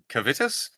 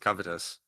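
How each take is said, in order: First: It is said like the word cavity. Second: It is said like the word covetous. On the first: "I call it cavitus, like cavity" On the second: "pronounced like covetous"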